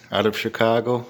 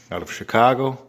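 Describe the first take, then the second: No difference in how they are said.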